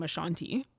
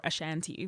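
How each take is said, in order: First: Ashanti with a broad "ah" in the middle, uh-SHAHN-tee; first pronunciation of Ashanti. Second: Ashanti with a short "a" as in "ant", uh-SHAN-tee; alternative pronunciation of Ashanti. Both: Shown as a demonstration. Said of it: "whichever way".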